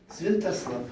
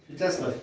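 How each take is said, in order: First: The first vowel is pronounced as 'en'. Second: The first vowel is pronounced as 'ya'. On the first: This is the old reading of the name. "А как ен. Как ен" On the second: This is the modern reading of the name. "не как я, как у нас"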